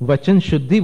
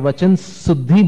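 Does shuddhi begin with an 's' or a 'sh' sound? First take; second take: sh; s. First: Shuddhi begins with a 'sh' sound. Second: Shuddhi begins with an 's' sound. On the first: The speaker calls it right. "वचन शुद्धि बोल रहे हैं आप" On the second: The speaker calls it wrong. "बोल दें आप उच्चारण में तो वो उच्चारण में अशुद्धि हो गई"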